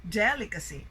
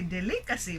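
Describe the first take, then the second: First: Delicacy stressed on DEL; stress on first syllable. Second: Delicacy stressed on LI, second syllable; misplaced stress. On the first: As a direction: say DEL-icacy, falling away. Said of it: "but delicacy". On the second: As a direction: wrongly say de-LI-cacy. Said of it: "we don't say delicacy". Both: Shown as a demonstration.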